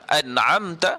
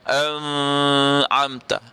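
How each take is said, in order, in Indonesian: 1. Bunyi n punya dengung sengau yang singkat dan ringan. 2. Bunyi n-nya disengaukan dan ditahan lama. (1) "mesti gunnah ini menggunakan laluan hidung" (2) "tak boleh bunyi dengan an'amta"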